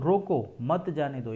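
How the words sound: The pause comes after 'roko'.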